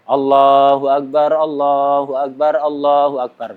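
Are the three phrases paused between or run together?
run together. The three phrases run on without stopping. The speaker calls it right. "Sunnahnya itu salasa takbirat mutawaliyah"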